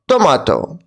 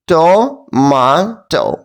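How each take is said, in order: First: The word is said quickly. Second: The word is split into robotic syllables. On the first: "And now let's say it quickly" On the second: "Now let's say like a robot by parts"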